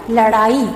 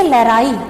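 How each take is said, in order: First: लड़ाई said with a retroflex flap ड़; correct pronunciation. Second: लड़ाई said with a tapped r; wrong pronunciation. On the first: Teacher to students, modelling retroflex ड़ in लड़ाई. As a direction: say लड़ाई with the tongue flapping back on ड़. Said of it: "र के स्थान पर ड़ का प्रयोग करना है". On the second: Teacher to students, showing the wrong r in लड़ाई. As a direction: show लड़ाई with a plain r sound. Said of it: "ये अशुद्ध रूप है". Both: Shown as a demonstration.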